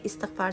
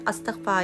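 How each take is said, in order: First: The word begins with an 'i' vowel. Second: The word begins with an 'a' vowel. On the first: The speaker calls it wrong. "इस्तगफार सही नहीं है" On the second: The speaker calls it right. "उसका pronunciation अस्तगफार ही सही word है"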